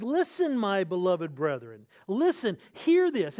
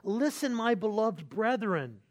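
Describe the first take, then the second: First: Rising, insistent plea to hear this, Listen hit hard each time; emphatic. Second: Listen eased in, my beloved brethren slowed and gentle; pastoral tenderness. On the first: James demanding his brethren's full attention, emphatic and raised. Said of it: "It's emphatic". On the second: James addressing beloved brethren with caring, tender warmth. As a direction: say it like a shepherd who loves his flock. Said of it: "you see his pastoral heart". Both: Retold or imitated.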